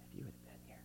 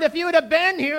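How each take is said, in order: First: It is said in a gentle, polite tone. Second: It is said in a sharp, angry tone. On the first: "You could say it really politely" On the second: "You could say it pretty angry"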